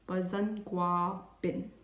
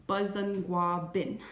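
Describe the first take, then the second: Both takes have the same delivery.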